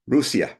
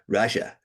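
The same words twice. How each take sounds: First: The name is pronounced the native way. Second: The name is pronounced the English way. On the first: The speaker calls it right. "It's Russia" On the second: The speaker calls it wrong. "not Russia"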